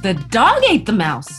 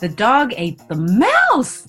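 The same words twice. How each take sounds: First: The stress is on the word dog. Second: The stress is on the word mouse.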